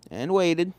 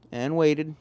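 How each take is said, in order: Both takes have the same delivery.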